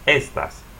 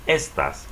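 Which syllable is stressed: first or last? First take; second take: first; first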